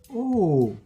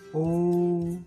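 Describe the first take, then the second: First: It is said with the fourth Mandarin tone. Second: It is said with the first Mandarin tone.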